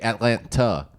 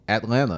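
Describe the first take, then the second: First: The second T is clearly pronounced. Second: The second T is dropped or softened. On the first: The speaker calls it right. "it's supposed to be Atlanta" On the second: The speaker calls it wrong. "What is a word that you refuse to pronounce correctly?"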